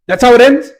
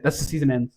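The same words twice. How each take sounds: First: Shot way up in pitch, loud disbelief; can't believe that's the ending; incredulous. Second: Said in the usual way. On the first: Real, not acted. Reviewer reacts to the finale in loud disbelief.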